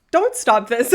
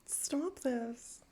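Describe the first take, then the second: First: Sudden loud, joking correction; loud reversal. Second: Very soft, overwhelmed murmur; hushed plea. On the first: Streamer taking back the plea to gifters, loud reversal. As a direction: burst out loudly to take it back. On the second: Streamer overwhelmed by gift subs, hushed plea. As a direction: say it small and hushed. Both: Real, not acted.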